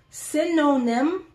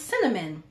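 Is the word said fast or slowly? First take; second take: slowly; fast. First: The word is said slowly and carefully. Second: The word is said quickly and blurred. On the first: The speaker calls it right. "I have to say it slowly like that" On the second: The speaker calls it wrong. "how I say it if I'm just talking, it's cinnamon"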